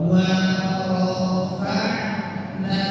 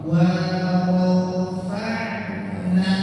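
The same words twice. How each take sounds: No difference in how they are said.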